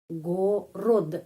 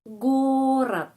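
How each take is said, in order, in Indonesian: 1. Kedua vokal terdengar seperti o; diakhiri dengan d. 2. Vokal kedua terdengar seperti a; diakhiri dengan t. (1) "G O go, R O ro, D gorod" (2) "huruf O tidak mendapat penekanan... bunyinya A... huruf D di belakang kata bunyinya seperti T"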